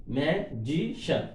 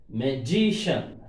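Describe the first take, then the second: First: "Magician" slowly parted into three syllables; syllables split. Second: Slow "Magician" with weight on GI; stress on GI. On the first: Teacher showing three syllables, slow, separated "Magician". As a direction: count out each syllable of "Magician". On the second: Teacher giving next example, slow "Magician" stressed on GI. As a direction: lean on GI in "Magician". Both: Shown as a demonstration. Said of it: "Shan before G".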